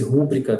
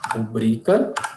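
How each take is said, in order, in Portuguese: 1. A tônica está na primeira sílaba. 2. A tônica está na segunda sílaba.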